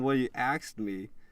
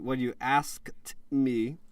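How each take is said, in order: First: The verb sounds like 'axed', with ks. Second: The verb sounds like 'asked', with sk. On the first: The speaker calls it wrong. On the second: The speaker calls it right.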